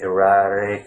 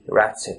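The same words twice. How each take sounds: First: The T is flapped, sounding almost like R. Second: The T is pronounced as a crisp T. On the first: "Americans say erratic, you know, the T's become almost like R's" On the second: "Erratic is the British version of the same word"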